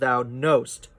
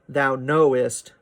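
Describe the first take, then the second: First: Knowest is squeezed into a single syllable. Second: Knowest has two syllables, the second unstressed. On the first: "he doesn't want that extra syllable in the line, so it becomes" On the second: "the emphasis in knowest is on know, and the ist is an unstressed syllable"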